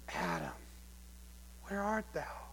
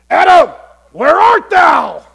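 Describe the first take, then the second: First: It sounds sorrowful, like a heartbroken father. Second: It sounds harsh, like an arresting officer.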